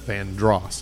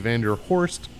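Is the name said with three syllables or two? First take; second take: two; three. First: The name is said with two syllables. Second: The name is said with three syllables. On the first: It is said the traditional local way. "it's actually pronounced Vandross, like [name]" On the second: It is read the way it is spelled. "you're pronouncing it the way it looks"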